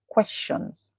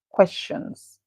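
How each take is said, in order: Both takes have the same delivery.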